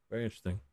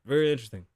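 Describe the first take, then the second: First: Much softer, trailing to near silence; much softer repeat. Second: Said in the usual way. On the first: Shown as a demonstration. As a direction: let "Very interesting" fade away almost to nothing. Repeats the phrase, second one dropped.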